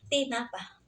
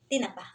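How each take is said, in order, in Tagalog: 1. Binibigkas nang hiwalay ang tatlong pantig. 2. Pinagsasama ang mga pantig sa isang mabilis na bigkas. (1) "Parang tatlong syllables" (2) "direct lang. Isang syllables lang"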